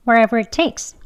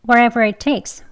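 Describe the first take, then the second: Both takes have the same delivery.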